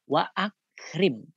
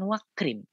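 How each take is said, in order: First: A glottal stop separates the two words. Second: The two words run together without a stop. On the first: The speaker calls it right. "ini bukti bahwa hamzahnya adalah hamzah qata" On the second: The speaker calls it wrong. "Tetap dibaca bukan wakrim"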